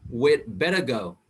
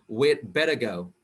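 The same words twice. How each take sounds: The two takes are said the same way.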